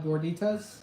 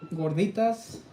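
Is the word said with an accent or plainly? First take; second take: plainly; accent. First: The word is said without a marked accent. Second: The word is said with a marked accent.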